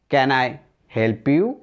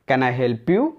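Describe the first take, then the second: First: It is said slowly. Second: It is said quickly.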